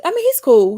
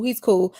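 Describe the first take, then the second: First: Excited. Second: Said in the usual way. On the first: Real, not acted. Excited about cast member.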